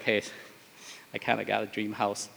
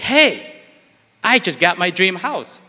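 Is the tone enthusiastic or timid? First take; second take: timid; enthusiastic. First: It sounds timid and unexcited. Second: It sounds enthusiastic and passionate.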